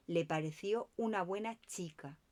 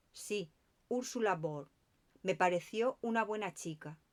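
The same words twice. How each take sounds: First: "pareció" leaned on, held and stressed. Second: Said in the usual way. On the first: A narrator's reading. Poirot repeats the doctor's words, stressing "pareció". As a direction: weigh the word "pareció" with suspicion. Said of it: "puso el énfasis en la segunda palabra". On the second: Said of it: "Poirot repitió a continuación mis palabras".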